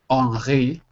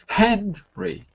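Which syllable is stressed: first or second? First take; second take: second; first. First: The stress is not on the first syllable. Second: The stress is on the first syllable. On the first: The speaker calls it wrong. "the last word is not Henri" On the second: The speaker calls it right. "Again, first syllable"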